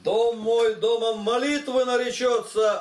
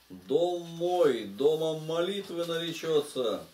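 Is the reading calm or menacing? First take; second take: menacing; calm. First: The passage is read in a stern, threatening tone. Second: The passage is read in a calm, even tone.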